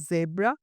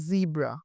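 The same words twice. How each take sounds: First: "জেব্রা" with short e, zeb-ra; British zebra. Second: "জিব্রা" with long ee, zee-bra; American zebra. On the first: Teacher contrasting accents, British জেব্রা as zeb-ra. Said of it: "ব্রিটিশে". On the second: Teacher contrasting accents, American জিব্রা as zee-bra. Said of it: "in আমেরিকানে". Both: Shown as a demonstration.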